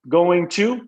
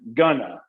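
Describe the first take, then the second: First: Both words are said in full. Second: The two words blend into gonna.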